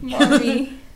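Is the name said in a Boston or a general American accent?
general American. It is said with a clear r sound.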